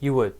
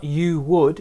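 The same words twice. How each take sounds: First: The words are weakened and linked together. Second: The words are said fully, each one clear. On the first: The speaker calls it right. "it's more" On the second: The speaker calls it wrong. "It's not"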